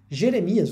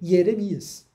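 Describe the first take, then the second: First: It begins with the Portuguese j sound. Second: It begins with a y sound. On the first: "comumente aqui no Brasil a gente chama de" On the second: "o Jeremias é um je"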